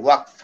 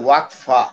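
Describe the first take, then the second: First: The word ends shortly on the consonant. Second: The word ends with an extra vowel sound. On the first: "উর্দুতে উচ্চারণটা ছোট" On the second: "আরবিতে বলে ওয়াকফা"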